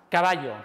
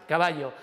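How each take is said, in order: Both takes have the same delivery.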